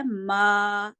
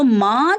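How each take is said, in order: First: ماں said as maa, without any ghunna; correct oral ما. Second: Loud ماں with a nasalised long vowel; wrong nasal ماں. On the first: Teacher gives the correct pronunciation, un-nasalised ماں. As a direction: keep the aa of ماں out of the nose. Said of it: "صحیح تلفظ کیا ہے؟". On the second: Teacher shows students the wrong pronunciation, nasalised ماں. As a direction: push the aa of ماں into the nose, louder. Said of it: "اس کا تلفظ ہے وہ غلط ہے". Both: Shown as a demonstration.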